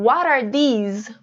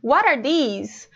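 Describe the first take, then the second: First: The words are linked, with an r-like t. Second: The same.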